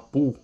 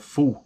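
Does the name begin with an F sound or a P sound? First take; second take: P; F. First: The name begins with a P sound. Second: The name begins with an F sound. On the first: "com o P ou o H aqui mundo seria só Pu" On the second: "pronunciar esse P H como um F seria Fu"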